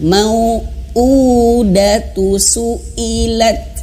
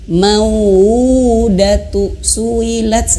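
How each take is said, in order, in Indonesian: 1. Suara terputus tajam di setiap hamzah. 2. Vokal-vokal itu mengalir bersambung tanpa hentian glotal. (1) "terputus suaranya" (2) "terlalu terbawa nafasnya ... ini salah ya"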